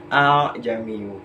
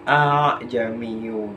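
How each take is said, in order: First: The two opening vowels glide smoothly together. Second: The two opening vowels glide smoothly together.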